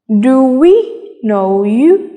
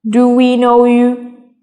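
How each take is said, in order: First: It is said with some words clearly stressed. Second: It is said flat, with no word stressed.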